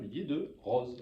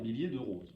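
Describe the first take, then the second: First: The o in roses is open. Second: The o in roses is closed. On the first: This is the regional southern pronunciation. "avec un O ouvert" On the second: This is the pronunciation the Paris record label demanded. "l'a obligé à modifier sa prononciation"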